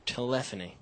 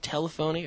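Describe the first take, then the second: First: Telephony said as tuh-LEFF-uh-nee; alternative pronunciation of telephony. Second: Telephony said as TELL-uh-foe-nee; first pronunciation of telephony. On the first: Host asks which way to say it, telephony as tuh-LEFF-uh-nee. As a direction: stress the second syllable, LEF, in telephony. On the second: Host asks which way to say it, telephony as TELL-uh-foe-nee. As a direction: say telephony as tele plus phony. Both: Shown as a demonstration. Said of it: "Is it telephony or telephony".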